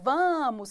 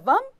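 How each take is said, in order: First: It is said as a statement, voice falling. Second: It is said as a question, voice rising.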